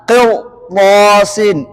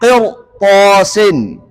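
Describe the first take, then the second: No difference in how they are said.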